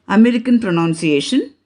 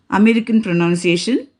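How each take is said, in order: The two takes are said the same way.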